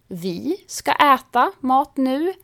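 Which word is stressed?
vi. The stress is on the word vi. It is us, not anyone else, who will eat. "betyder vi ska äta mat nu, men inte ni eller några andra"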